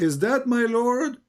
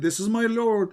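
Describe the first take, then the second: First: Slow, questioning rise on Lord; slowly, doubtful question; question tune. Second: Said flat as a plain statement, falling at the end; firm falling declaration; statement tune. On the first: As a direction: ask it, rising at the end. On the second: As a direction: state it, don't ask it. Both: Shown as a demonstration. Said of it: "He didn't say".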